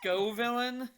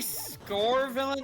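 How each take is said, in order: First: The name has no R sound after 'Sco'. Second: The name has an R sound after 'Sco'. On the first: The speaker calls it right. "and not Scovillain?" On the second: The speaker calls it wrong. "Did you just say Scorevillain"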